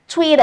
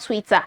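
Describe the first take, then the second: First: It is said with an American accent. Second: It is said without an American accent. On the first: The speaker calls it right. "let me speak American English" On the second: The speaker calls it wrong. "and not"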